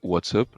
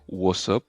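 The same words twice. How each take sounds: First: The T is pronounced clearly, as written. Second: The T between the words is dropped. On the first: "normal, comme il s'écrit" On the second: "comme s'il n'y avait pas de T entre euh, le what et le up"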